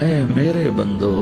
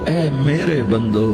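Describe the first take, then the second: Both takes have the same delivery.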